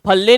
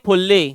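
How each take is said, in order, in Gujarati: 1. પહેલો સ્વર ખુલ્લો 'a' અવાજ છે. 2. પહેલો સ્વર ગોળ 'u' અવાજ છે. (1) "ફલ્લી ની ફુલ્લી" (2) "ફલ્લી ની ફુલ્લી"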